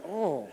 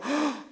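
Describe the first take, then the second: First: Unmoved passer-by's "oh". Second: Sharp, high gasped "oh"; acted shock of compassion; gut-punched gasp. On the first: Acted. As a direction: say "oh" as a bystander who won't get involved. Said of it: "the first guy went". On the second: Shown as a demonstration. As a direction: gasp "oh" as if struck by another's pain. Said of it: "makes you go".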